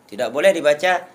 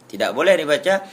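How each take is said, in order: No difference in how they are said.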